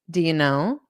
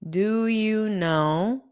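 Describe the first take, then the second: First: The phrase is said quickly and run together. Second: The phrase is said slowly and clearly. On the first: "saying it very quickly, it might sound like" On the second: "I'll say it slowly"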